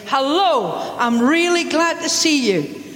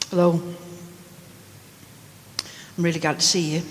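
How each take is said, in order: First: The greeting is said in a warm, hearty tone. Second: The greeting is said in a flat, uncaring tone. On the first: The speaker is truly happy to see the listener. The speaker calls it right. "you shake them by the hand, you slap them on the back" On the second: The speaker does not really care about the listener. The speaker calls it wrong. "Or do you hear me say, she couldn't care less about me?"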